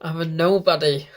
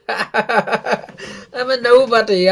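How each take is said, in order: First: Said in the usual way. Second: Slow, laughing through the words. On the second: Real, not acted. Fan laughing at himself while repeating the line. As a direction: chuckle it out, amused at yourself.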